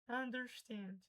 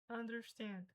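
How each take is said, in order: No difference in how they are said.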